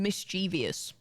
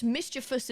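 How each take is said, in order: First: "mischievous" in four syllables, mis-CHEE-vee-us; common mispronunciation. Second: "mischievous" in three syllables, MIS-chi-vus; correct pronunciation. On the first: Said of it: "Mischievous isn't a word". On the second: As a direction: say "mischievous" with stress up front, no ee sound. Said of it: "The correct word is mischievous". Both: Shown as a demonstration.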